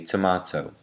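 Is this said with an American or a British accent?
British. It is said with a British accent. "a Brit would say tomato"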